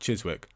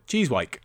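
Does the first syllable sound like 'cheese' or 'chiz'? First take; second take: chiz; cheese. First: The first syllable has a short vowel, 'chiz'. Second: The first syllable has a long vowel, 'cheese'. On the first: This is the usual pronunciation of the name. "change the pronunciation of Chiswick" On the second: This is a playful proposed pronunciation. "I just think that would have been more fun"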